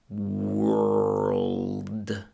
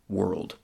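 First: The word is drawn out very slowly. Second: The word is said at ordinary speed. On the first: "Let's do it real slow" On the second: "with normal speed"

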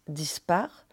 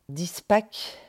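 First: The word ends with an r sound. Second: The word ends with a k sound. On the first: Revolt, revolution. "qu'on prononce dispar" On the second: Open, undone, disordered. "ça veut dire ouvert, défait, désordonné en breton"

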